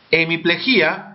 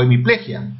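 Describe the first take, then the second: First: "Hemiplegia" as he-mi-ple-GÍ-a; stress on GI. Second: "hemiplegia" as he-mi-PLE-gia; stress on PLE. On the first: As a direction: break the final vowels of "Hemiplegia", stressing the I. ("Hemiplegia" con acento en la I: hemiplejí-a) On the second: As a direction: put the weight of "hemiplegia" on PLE. ("hemiplegia" con acento en PLE) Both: Shown as a demonstration. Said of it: "palabras con doble acentuación".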